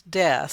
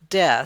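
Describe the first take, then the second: The two takes are said the same way.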